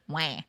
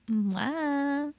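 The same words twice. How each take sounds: First: The cry is in a redneck accent. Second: The cry is in a Californian accent.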